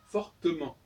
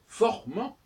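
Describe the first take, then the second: First: The middle E is clearly pronounced. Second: The middle E is dropped entirely. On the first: The speaker calls it right. "j'entends bien le E" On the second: The speaker calls it wrong. "Je ne dis pas"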